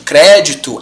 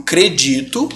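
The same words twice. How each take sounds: First: "crédito" stressed on CRÉ; stress on first syllable. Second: "credito" stressed on DI; stress on middle syllable. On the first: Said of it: "o crédito é proparoxítona". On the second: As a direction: say "credito" as cre-DI-to. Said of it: "é uma paroxítona". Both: Shown as a demonstration.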